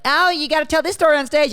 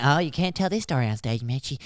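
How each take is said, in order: First: High, gushing in-law urging him on. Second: A hint of a hushed, scolding in-law. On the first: Retold or imitated. In-laws egging the comedian son-in-law on, high and gushy. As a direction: chirp it like a pushy in-law. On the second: In-laws telling Mitchie to keep it off stage, softer. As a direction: pull back, softer, warning him off. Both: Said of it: "they, they're like".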